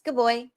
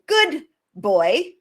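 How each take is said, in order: First: The two words are linked smoothly together. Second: The two words are said separately and exaggerated. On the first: The speaker calls it right. "it's that linking that happens" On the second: The speaker calls it wrong. "We don't say good boy, and I'm really exaggerating there"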